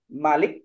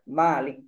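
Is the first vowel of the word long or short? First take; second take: short; long. First: The first vowel is said short. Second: The first vowel is said long. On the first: It means king. "dibaca pendek itu lebih utama" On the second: It means owner. "raja itu lebih utama daripada pemilik"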